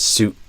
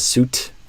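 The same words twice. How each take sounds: First: The final T is a sudden throat stop. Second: The final T is released audibly. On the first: "I'm stopping the sound in my throat" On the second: "which is not wrong"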